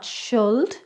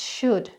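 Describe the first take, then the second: First: The L sound is pronounced. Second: The L sound is silent. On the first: The speaker calls it wrong. "It's not should" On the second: The speaker calls it right. "it's should"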